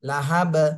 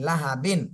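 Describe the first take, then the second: First: The word ends on a bare, echoing b. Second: The word ends with a nasal -bin syllable. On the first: The reader stops at the end of the verse. "সাকিন দিয়ে পড়তে হবে... কলকলা করতে হবে" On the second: The reading continues without stopping. "বা দুই জের বিন"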